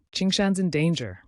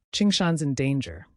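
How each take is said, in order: Both takes have the same delivery.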